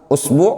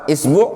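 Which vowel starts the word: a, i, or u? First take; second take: u; i. First: The word begins with a u vowel. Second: The word begins with an i vowel. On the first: "Antum mulai misalkan dhammah" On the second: "Kemudian antum kasroh"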